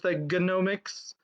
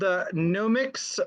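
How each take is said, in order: First: The initial G is pronounced. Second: The initial G is silent.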